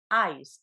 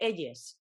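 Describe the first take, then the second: First: It is said with an English pronunciation. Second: It is said with a Spanish-style pronunciation. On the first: "por pronunciar bien" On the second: "en lugar de"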